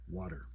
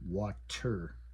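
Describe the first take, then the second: First: The T sounds soft, almost like a D. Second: The T is pronounced crisp and clear. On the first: The speaker calls it right. "It almost has a D sound" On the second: The speaker calls it wrong. "we don't say water, right? We don't pronounce that T really crisp and clear"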